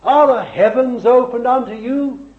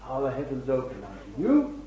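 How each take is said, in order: First: Raised, ringing preacher's question; forceful challenge. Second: Quiet searching question. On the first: Preacher challenging the congregation, forceful question. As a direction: throw the question out to the whole congregation. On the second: Preacher asks the congregation about themselves, quiet searching question. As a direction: ask it softly, letting it sink in. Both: Real, not acted.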